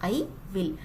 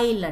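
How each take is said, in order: First: Both words are said fully and separately. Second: The words are squeezed into one short syllable.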